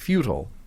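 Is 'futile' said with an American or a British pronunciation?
American. Futile is said with an American pronunciation. "instead of futile"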